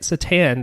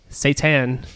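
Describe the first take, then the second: First: It is said the Eastern European way. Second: It is said the usual English way. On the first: It names a hockey player. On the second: It names the devil.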